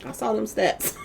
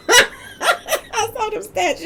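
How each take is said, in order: First: Said in the usual way. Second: High, slow words broken by laughter; laughing through words. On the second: Real, not acted. Telling viewers she saw his stats: laughing through words. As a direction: laugh as you say it.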